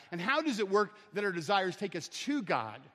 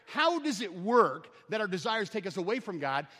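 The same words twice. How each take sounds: First: TO God, set against away from; stress on TO. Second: AWAY FROM set against TO; stress on AWAY FROM. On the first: Preacher turning the question round, stressing TO. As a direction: land firmly on the word TO. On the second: Preacher setting out mechanics of desire, stressing AWAY FROM. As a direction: lean on HOW, then AWAY FROM. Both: Real, not acted.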